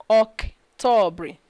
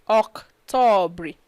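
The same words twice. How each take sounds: The two takes are said the same way.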